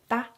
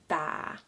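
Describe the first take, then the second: First: The vowel is said short. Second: The vowel is held long. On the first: The speaker calls it wrong. "instead of saying tha" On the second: The speaker calls it right. "since it's a double a, just uh, stay on that pronunciation a little bit longer"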